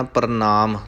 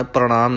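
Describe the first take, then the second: First: ਪ੍ਰਣਾਮ with plain dental n, "par-naam". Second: ਪ੍ਰਣਾਮ with curled-tongue ṇ, "pra-ṇaam"; retroflex N. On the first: Teacher correcting learners, ਪ੍ਰਣਾਮ said with dental n. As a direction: say ਪ੍ਰਣਾਮ with the tongue forward for n. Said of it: "ਨੰਨਾ ਲਾਉਣਾ ਹੈ". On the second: Teacher showing learners the error, ਪ੍ਰਣਾਮ with retroflex ṇ. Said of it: "ਪ੍ਰਣਾਮ ਨਹੀਂ ਕਹਿਣਾ". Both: Shown as a demonstration.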